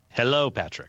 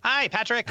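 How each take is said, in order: First: It is said in his natural voice. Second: It is said in a SpongeBob impression voice.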